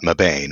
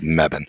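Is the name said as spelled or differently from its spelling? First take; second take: as spelled; differently. First: The name is pronounced the way it is spelled. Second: The name is pronounced unlike its spelling. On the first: The speaker calls it wrong. "It is not Mebane" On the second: The speaker calls it right. "it's Mebane"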